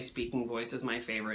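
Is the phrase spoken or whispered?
spoken. The phrase is said in a normal speaking voice. The speaker calls it right. "eventually I say"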